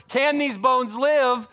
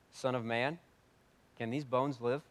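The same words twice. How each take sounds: First: High, loud, very slow question; a loud slow preached question; preaching at full force. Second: Said in the usual way. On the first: Acted. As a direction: let the question ring out.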